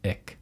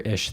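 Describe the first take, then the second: First: It is said the standard way, with the 'ich' sound. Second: It is said the Eastern regional way, like 'ish'.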